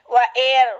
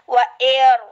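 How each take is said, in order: The two takes are said the same way.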